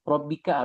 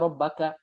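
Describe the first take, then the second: First: The vowel after the double b is 'i'. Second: The vowel after the double b is 'a'. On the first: The word is in the genitive case. The speaker calls it wrong. "tidak fasih" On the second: The word is in the accusative case. The speaker calls it right. "harusnya Robbaka"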